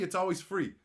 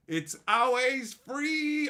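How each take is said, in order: First: Said in the usual way. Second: It's always free stretched slow and higher; sing-song, slow and louder; drawn-out higher. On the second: Shown as a demonstration. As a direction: free dragged out long and high. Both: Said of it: "repeated drawn out".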